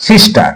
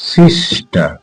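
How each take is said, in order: First: Said in the usual way. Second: "sister" drawn out in two parts, সিস then টার; split into syllables. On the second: Shown as a demonstration. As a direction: say "sister" slower and lower, broken after সিস. ("Sister" দুই ভাগে ভেঙে, টেনে উচ্চারণ) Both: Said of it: "দুটো পার্টে ভাগ করতে হচ্ছে".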